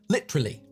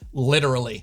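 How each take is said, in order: First: The word is said with three syllables and slight pause. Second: The word is said with four syllables and soft T. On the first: "quicker to say at only three syllables, albeit with a slight pause" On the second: "the four syllable literally"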